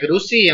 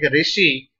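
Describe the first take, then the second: First: The word begins with a 'ru' sound. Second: The word begins with a 'ri' sound. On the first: The speaker calls it right. "there also you should say Rushi" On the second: The speaker calls it wrong. "people started speaking Ru vowel as Ri"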